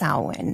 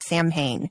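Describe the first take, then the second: First: It is said without any m sound. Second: It is read as spelled, with the m. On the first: The speaker calls it right. "It's Samhain is how it's pronounced" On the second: The speaker calls it wrong. "In my little American brain is like Sam Hain. It's not"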